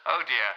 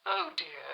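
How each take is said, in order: First: Said in the usual way. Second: Much higher, regal mock dismay; a queen's disappointed sigh up high; Queen Mary. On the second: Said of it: "Her Majesty Queen Mary".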